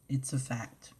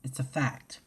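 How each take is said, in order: First: Said in the usual way. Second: Breathy whispered statement. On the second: Real, not acted. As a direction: whisper it as settled truth. Repeated line, first whispered.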